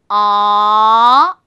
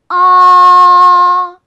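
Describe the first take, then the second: First: The pitch rises from middle to high. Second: The pitch stays high and level throughout. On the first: "중간 음에서요, 높은 음으로 올라서 이렇게 밀어 올리면서" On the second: "일성은 높은 음에서 높은 음까지 쭉 어, 밀어주면서 발음하시면 돼요"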